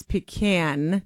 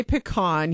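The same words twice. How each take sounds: First: Pecan said "pih-KAN"; flat "a" as in "can" at the end of pecan; husband's pronunciation. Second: Pecan said "pih-KAHN"; speaker's own pronunciation. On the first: Retold or imitated. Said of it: "He says pecan". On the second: Shown as a demonstration. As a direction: open "ah" in the second syllable of pecan. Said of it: "I say pecan".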